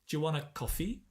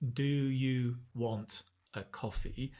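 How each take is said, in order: First: 'Do you' blends into a 'j' sound. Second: Each word is pronounced fully and separately.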